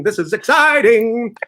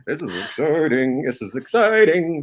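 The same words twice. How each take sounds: First: Hyped-up. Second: Said in the usual way. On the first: Shown as a demonstration. Host hyping, third louder take.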